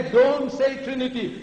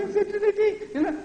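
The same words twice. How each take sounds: First: Raised, emphatic order; firm warning. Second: Tiny, very high falsetto; mocking chicken voice. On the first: Shown as a demonstration. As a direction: warn someone off sharply. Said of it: "When you tell somebody". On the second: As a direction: squeak the warning out meekly in parody. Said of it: "that chicken voice".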